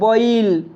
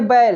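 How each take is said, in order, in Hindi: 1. छत्तीसगढ़ी में 'oi' स्वर के साथ बोला गया। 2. मानक हिंदी में 'ai' स्वर के साथ बोला गया। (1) "बैल को छत्तीसगढ़ी में कहेंगे बॉइल" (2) "जैसे बैल"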